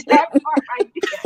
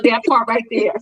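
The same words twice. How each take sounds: First: Laughing through the words. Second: Said in the usual way. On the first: Real, not acted. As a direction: repeat it while cracking up.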